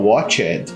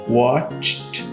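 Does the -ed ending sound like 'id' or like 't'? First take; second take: id; t. First: The ending is an extra 'id' syllable. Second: The ending is a short t sound. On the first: The speaker calls it wrong. "você conhece uma pessoa... que fala watched" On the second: The speaker calls it right. "o meu ed vai ter um som de T"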